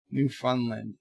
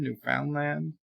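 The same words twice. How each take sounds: First: "Newfoundland" with a reduced middle, as NEW-fun-lund; "Newfoundland" with found weakened to fun; settled pronunciation. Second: "Newfoundland" with a full FOUND in the middle, questioning; "Newfoundland" with middle rhyming with sound; questioning pronunciation. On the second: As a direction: say "Newfoundland" as new-FOWND-land. Trying out how to pronounce it. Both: Shown as a demonstration.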